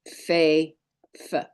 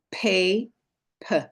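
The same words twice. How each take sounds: First: "Fei" with a soft f, then "f" alone; soft non-dagesh sound. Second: "Pei" with a hard p, then "p" alone; hard dagesh sound. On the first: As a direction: say "Fei", pause, then a short isolated "f". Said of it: "and the soft non-dagesh version". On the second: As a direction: say "Pei", pause, then a short isolated "p". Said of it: "the hard dagesh version". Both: Shown as a demonstration.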